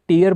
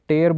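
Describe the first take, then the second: First: The vowel sounds like 'ear'. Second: The vowel sounds like 'air'. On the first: It means drops from the eyes. "इसे मैं अगर टीयर बोलूँ तो ये आंसू बन जाएगा" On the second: It means to rip something. "मैं इसे टेयर बोलूँ तो टू रिप हो जाएगा"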